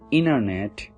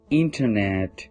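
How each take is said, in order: First: The T after the N is dropped. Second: The T after the N is heard.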